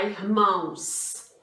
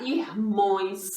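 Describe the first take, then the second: First: "irmãos" ending in ãos, the accepted plural; correct plural. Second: "irmões" as a deliberately mistaken form ending in ões; wrong plural. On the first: Teacher showing pupils the right plural of irmão, correct plural "irmãos". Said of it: "Não poderia ficar irmão". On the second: Teacher showing pupils a plural that doesn't exist, wrong plural "irmões". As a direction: say "irmões" with a nasal ões ending replacing ãos. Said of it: "Existe irmões?". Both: Shown as a demonstration.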